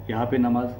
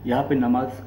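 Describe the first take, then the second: No difference in how they are said.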